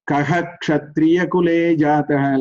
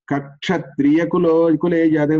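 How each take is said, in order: First: The first 'ka' ends with an audible 'ha'. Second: The first 'ka' runs straight into 'kshatriya'. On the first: The speaker calls it right. "Visarga must be pronounced. Kaha Kshatriya Kule Jataha, like that we have to say" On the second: The speaker calls it wrong. "you should not say Kakshatriya Kulo Kule Jadav"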